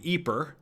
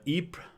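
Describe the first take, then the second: First: It is said with the local Flemish pronunciation. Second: It is said with a French pronunciation. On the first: This is what the natives call it. "the natives call the town Ypres" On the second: This is what the French call it. "the French call it Ypres"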